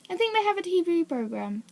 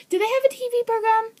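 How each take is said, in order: First: Said in the usual way. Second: High, fast incredulous question; surprised question. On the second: Real, not acted. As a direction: sound genuinely startled they have a show. Surprised question about TV show.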